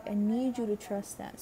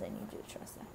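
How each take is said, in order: First: Said in the usual way. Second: Hushed message from spirit; whispered. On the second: Acted.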